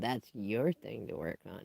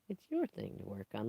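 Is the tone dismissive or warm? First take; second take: dismissive; warm. First: The tone is curt and dismissive. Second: The tone is warm and encouraging. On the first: The problem is pushed back onto the listener. The speaker calls it wrong. "not like, well" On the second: Working on it is an opportunity. The speaker calls it right. "Like it's a thing that I get to do"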